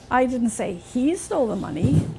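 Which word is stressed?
he. The word 'he' carries the main stress. Someone else took it. "Somebody else must have taken it, not him"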